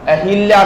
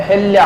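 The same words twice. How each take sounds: First: "hi" in the middle of अहिल्या; अहिल्या with a clear i after h; wrong i vowel. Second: अहिल्या said as a-hal-yaa, no i; अहिल्या as "ahalya", without the i; correct a vowel. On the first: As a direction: say अहिल्या as a-hil-yaa. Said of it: "अहिल्या नहीं है". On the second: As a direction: say अहिल्या with short a after h. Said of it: "अहिल्या है". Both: Shown as a demonstration.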